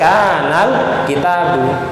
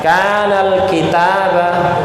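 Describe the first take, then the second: First: The word kitab ends with a u vowel. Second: The word kitab ends with an a vowel. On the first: The speaker calls it right. "Harus kanal kitabu. ... Konteks seperti ini dibaca dhammah" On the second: The speaker calls it wrong. "salah berarti itu ya"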